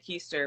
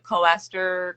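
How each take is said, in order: First: The first vowel sounds like 'eye'. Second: The first vowel sounds like 'oh'. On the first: The speaker calls it right. "so my name's [name]" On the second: The speaker calls it wrong. "everybody mispronounces it"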